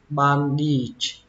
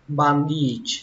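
No difference in how they are said.

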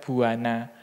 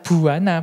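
First: The first b is plain, without aspiration. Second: The first b is aspirated, with a breathy release. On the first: The speaker calls it wrong. "bukan buana" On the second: The speaker calls it right. "B beraspira seperti ini sehingga uh, apa sehingga dia pembacaannya adalah buana"

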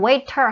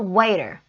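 First: The middle consonant is a clear T sound. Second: The middle consonant is a soft flapped D sound. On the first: "물론 waiter 하셔도 돼요" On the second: "D 리을 소리 나옵니다. 이렇게 편하게 나올 수 있죠"

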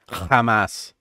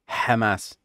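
First: The word is said the way Hebrew speakers say it. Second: The word is said with a different opening sound. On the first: This is how Hebrew speakers say the name. "the Hebrew speakers, they pronounce it Hamas" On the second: This is how the name is thought to be properly said. "But I think it's Hamas. But they don't have that letter"

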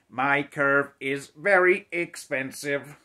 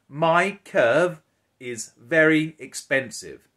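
First: It is said in a flat, mechanical robot voice. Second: It is said in a plain, natural voice.

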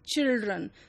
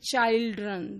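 First: The first vowel is a short 'ih' sound. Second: The first vowel is a long 'eye' sound. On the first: The vowel shortened as it is actually said. The speaker calls it right. "rather it is children" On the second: The vowel of 'child' kept unchanged. The speaker calls it wrong. "does not remain children"

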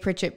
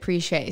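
First: It is said as a plain English surname. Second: It is said with a fancy French-style ending. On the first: This is the family's ordinary last name. "Our last name is obviously Pritchett" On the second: This is the name of the bridal store. "kind of like Target, Tarjay"

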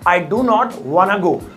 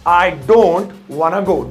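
First: Do not is said as two full words. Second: Do not is contracted into one word, don't. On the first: It is plainer English. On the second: It is more casual, stylish English.

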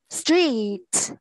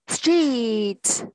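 Both takes have the same delivery.

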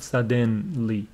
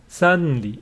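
First: A vowel is heard between d and n. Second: No vowel is heard between d and n. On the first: The speaker calls it wrong. "It is not suddenly. This vowel is not pronounced" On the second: The speaker calls it right. "It is suddenly. There is nothing between d and n"

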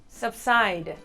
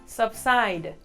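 The two takes are said the same way.

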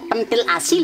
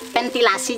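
First: The word begins with a p sound. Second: The word begins with a v sound. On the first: The speaker calls it wrong. "Tulisannya kan keto beli pentil asi" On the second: The speaker calls it right. "pengucapannya dep gadangan lagi"

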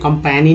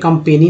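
First: The middle vowel sounds like 'ae'. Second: The middle vowel sounds like 'e'. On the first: "कंपैनी नहीं बोल रहे हैं" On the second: "कंपेनी नहीं बोल रहे हैं"

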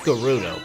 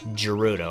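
First: The name begins with a hard G sound. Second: The name begins with a J sound. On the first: The speaker calls it right. "It's pronounced Gerudo" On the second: The speaker calls it wrong. "some like to argue that it's Gerudo"

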